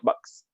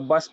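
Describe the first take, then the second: First: A glottal catch comes before the final s. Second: It ends in a plain s, with no catch. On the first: The speaker calls it right. "Masuk hamzah dulu baru masuk huruf sin" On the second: The speaker calls it wrong. "Kalau bas pun kita tinggal huruf hamzah"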